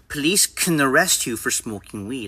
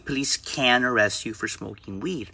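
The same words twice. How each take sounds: First: The word can is reduced to a weak kun. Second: The word can is said fully with a clear vowel. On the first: The speaker calls it right. "when can is in the middle of the sentence, pronounce it as kun" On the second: The speaker calls it wrong. "I don't say"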